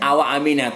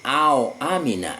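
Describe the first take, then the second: First: The waw is followed by a short vowel. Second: The waw is silent, forming a diphthong. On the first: This is how another reciter reads it. "tidak awa amina" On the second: This is how the three named reciters read it. "bisukunil wawi"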